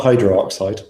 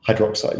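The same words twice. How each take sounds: First: Hydroxide stretched wrongly into hydro-oxide; mispronounced with double O. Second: Said in the usual way. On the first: Shown as a demonstration. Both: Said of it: "it's just the one O".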